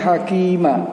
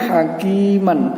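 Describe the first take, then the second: First: The word ends with a long a vowel. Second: The word ends with an n sound. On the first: The reader stops at this word. "ternyata di sini hakima" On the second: The reading continues without a stop. "Kalau ini kan bunyinya hakiman"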